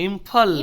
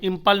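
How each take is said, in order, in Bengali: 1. মাঝের ব্যঞ্জনটি একটি মহাপ্রাণ ph ধ্বনি। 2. মাঝের ব্যঞ্জনটি একটি অল্পপ্রাণ p ধ্বনি।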